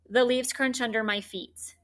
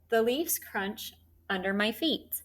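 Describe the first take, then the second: First: Each word is read separately, with choppy breaks. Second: Words are grouped, with a break after 'crunch'. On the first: The speaker calls it wrong. "we don't just say" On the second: The speaker calls it right. "I would probably put these first three words together"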